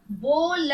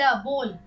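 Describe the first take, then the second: First: बोल split as a long बो, then ल; बोल stretched into बो... ल; sounded out. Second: Said in the usual way. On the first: Shown as a demonstration. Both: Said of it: "आप भी कुछ बोलिए मेरे साथ".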